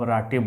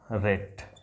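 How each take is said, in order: First: The vowel is 'ah' with a final 'eh'. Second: The vowel is 'ay' with no final vowel. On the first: The speaker calls it wrong. "आप राटे बोलेंगे ... लेकिन वो नहीं करना है" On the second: The speaker calls it right. "उसके बाद एट हो जाएगा"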